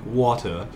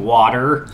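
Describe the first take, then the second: First: The word is said in an English accent. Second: The word is said in an American accent. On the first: "my kid used to say water with an English accent" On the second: "she went from having the English accent to the one that whatever John Krasinski has"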